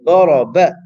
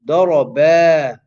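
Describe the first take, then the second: First: The final vowel is cut short. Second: The final vowel is stretched out long. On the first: The speaker calls it wrong. "I'm only reciting the ba for the letter of one haraka" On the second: The speaker calls it right. "Whereas the actual word is daraba"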